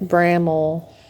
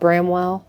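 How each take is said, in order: First: The name is said like 'Bramble'. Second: The name is said like 'Bramwell'. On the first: The speaker calls it right. "That's Bramble, we found out later" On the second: The speaker calls it wrong. "what did we call it? Bramwell?"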